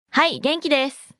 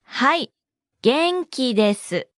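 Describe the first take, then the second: First: Said in the usual way. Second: はい, a pause, then 元気です spaced out; slow model. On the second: Shown as a demonstration. Teacher breaks down the response for learners, slowly.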